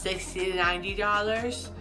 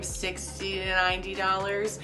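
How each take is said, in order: First: The consonants are slurred and unclear. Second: Some consonants are clear, others still slurred. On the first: The speech was still impaired after healing began. "I would really hear it in pricing" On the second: The speech was partly recovered. "After a while, it became"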